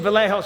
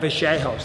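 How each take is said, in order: First: The middle consonant sounds like 'l'. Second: The middle consonant sounds like 'ch'. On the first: The speaker calls it wrong. "I was saying Vallejos for a while" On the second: The speaker calls it right. "that's how you say it"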